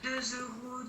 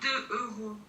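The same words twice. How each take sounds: First: A z sound links deux to euros. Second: No z sound links deux to euros. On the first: The speaker calls it right. "comme tu dis" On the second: The speaker calls it wrong. "Tu peux pas dire deux euros"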